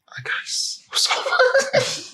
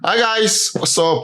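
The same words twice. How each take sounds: First: It is shouted loudly. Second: It is said calmly, without shouting.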